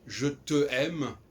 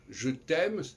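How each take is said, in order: First: The vowel of 'te' is kept before 'aime'. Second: The vowel of 'te' is dropped before 'aime'. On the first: The speaker calls it wrong. "c'est pas très joli" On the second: The speaker calls it right. "c'est pour ça qu'il a inventé les apostrophes"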